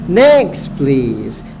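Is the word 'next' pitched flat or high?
high. Next is said higher than please. The speaker shows enthusiasm and interest. The speaker calls it right. "Next-nya lebih tinggi"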